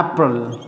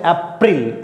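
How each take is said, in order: First: अप्रैल said "aprel" with a short open a; correct April. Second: अप्रैल said as "epril", Indian style; teacher shows the common wrong अप्रैल with an e sound; wrong way shown. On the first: Teacher to students: the correct अप्रैल, said carefully. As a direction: model अप्रैल as English "April". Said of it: "अप्रैल नहीं, ये बोला जाता है अप्रैल". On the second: Teacher to students: the wrong अप्रैल as "epril". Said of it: "इसको कुछ लोग पढ़ते हैं अप्रैल". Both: Shown as a demonstration.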